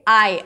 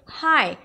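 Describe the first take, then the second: First: The word starts without an H sound. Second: The word starts with a breathy H sound. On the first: The speaker calls it wrong. "You don't say I" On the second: The speaker calls it right. "You say hi"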